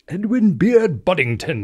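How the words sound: The name is said in a put-on British accent.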